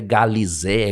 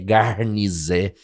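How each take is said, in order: First: The middle syllable sounds like 'li'. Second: The middle syllable sounds like 'rni'. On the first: The speaker calls it wrong. "ele não é galizé" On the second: The speaker calls it right. "é garnizé"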